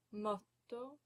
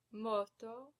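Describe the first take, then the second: First: Motto with the t held; double consonant. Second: Moto with one short t; single consonant. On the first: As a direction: stop briefly on the tt in motto. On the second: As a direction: say moto with long first o, quick t. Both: Shown as a demonstration. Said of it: "you pronounce that consonant longer".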